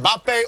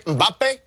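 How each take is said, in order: First: Mbappe opening on a clear "em" sound; name said one way. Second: Mbappe opening on a short "um" sound; kids' pronunciation. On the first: Analyst giving the first version of the star's name, pronounced em-BAH-pay. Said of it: "however we wanna say that". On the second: Analyst copying how your kids would say it, um-BAH-pay. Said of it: "or as your kids would say". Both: Shown as a demonstration.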